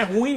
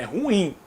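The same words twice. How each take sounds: First: "ruim" said as one syllable, stress on the u, rúim; teacher shows the wrong way: "ruim" as rúim; wrong pronunciation. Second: "ruim" in two syllables, stress on the final im: ru-ÍM; teacher models the right way: "ruim" as ru-ím; correct pronunciation. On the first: Teacher warns students against the mispronunciation, one-syllable "ruim". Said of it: "não é ruim não". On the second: Teacher gives students the right form, ru-ÍM "ruim". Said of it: "É ruim". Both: Shown as a demonstration.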